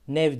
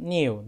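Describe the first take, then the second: First: The word ends with a v sound. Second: The word ends with a u sound. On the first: The speaker calls it wrong. "nev diye belki duymuşsunuzdur" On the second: The speaker calls it right. "Ama okunuşu new diye söyleniyor"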